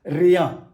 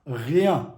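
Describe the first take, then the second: First: Rien with a hard English-style R, louder; wrong English R. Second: Rien with a throaty French R. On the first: Teacher shows learners what to avoid, English R in rien. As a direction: say rien with a tongue R, not throaty. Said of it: "not rien". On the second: Teacher warns learners not to neglect it, French R in Rien. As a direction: start Rien at the back of the throat. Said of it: "Don't neglect this". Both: Shown as a demonstration.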